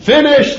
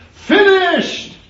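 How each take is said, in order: First: Very high, loud mock cry; despairing cry. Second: Even higher, loud ringing mock yell; despairing yell. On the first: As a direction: wail that it's over. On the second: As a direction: cry it out as if all is lost. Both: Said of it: "he said".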